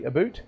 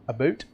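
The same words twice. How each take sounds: First: It is said in an imitated Canadian accent. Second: It is said in the speaker's ordinary accent.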